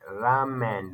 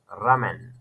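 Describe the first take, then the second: First: The first vowel is held long. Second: The first vowel is kept short. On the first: The speaker calls it right. "This uh, line is making longer sounds. That you're making ramen, like ramen" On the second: The speaker calls it wrong. "not like ramen"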